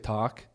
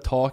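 First: It is said in a coached Northern California accent. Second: It is said in the speaker's usual accent. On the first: "you say talk" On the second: "instead of talk"

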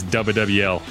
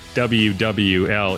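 First: The letters are clipped and run together quickly. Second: Each letter name is said in full. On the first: The speaker calls it right. "It's WWL. Like if you spelled it, it'd be like D-U-B-A-E-L-L-L" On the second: The speaker calls it wrong. "It's not WWL"

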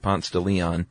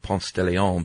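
First: The name is said the local Atlanta way. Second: The name is said a non-local way. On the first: "that's how we say it here" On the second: "not Ponce de Leon"

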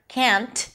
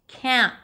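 First: The final T is clearly released. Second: The N stops abruptly with no released T. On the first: The speaker calls it wrong. "because you don't hear can't" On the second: The speaker calls it right. "you barely hear it... You hear an abrupt stop of the N"

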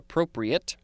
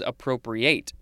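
First: The last syllable is a weak 'it' sound. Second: The last syllable is a full 'ate' sound. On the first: It is the adjective meaning suitable. The speaker calls it wrong. "not appropriate" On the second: It is the verb meaning to take possession. The speaker calls it right. "This one's appropriate"

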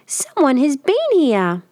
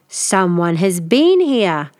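First: The voice is a high squeak. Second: The voice is a loud growl. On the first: A small bear is speaking. "he cried in a very squeaky voice" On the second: A big bear is speaking. "Father Bear growled"

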